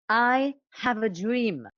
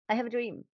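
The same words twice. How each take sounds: First: The voice is big, open and resonant. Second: The voice is small, tight and restricted.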